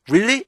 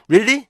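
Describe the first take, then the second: Both takes have the same delivery.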